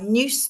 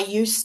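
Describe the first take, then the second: First: The word starts with an added extra sound. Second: The word starts plainly with a 'y' sound. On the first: "they're putting that that kind of in at the start" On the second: "instead of saying"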